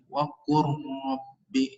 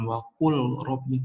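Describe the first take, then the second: First: The L merges into a doubled R sound. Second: The L is pronounced separately before the R. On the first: The speaker calls it right. "tapi waqurrabbi langsung gitu ya" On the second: The speaker calls it wrong. "bukan waqul rabbi"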